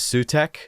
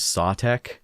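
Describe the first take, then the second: First: The first vowel sounds like 'oo'. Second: The first vowel sounds like 'aw'. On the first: This is the speaker's own habit. "I've always pronounced it as Sutek" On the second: Other people say it this way. "I hear people also pronouncing it as Sawtek"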